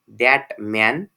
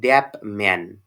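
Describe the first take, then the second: First: The word 'that' ends in a t sound. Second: The word 'that' ends in a p sound. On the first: "in isolation that is pronounced as" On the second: "in the connected speech it is pronounced as"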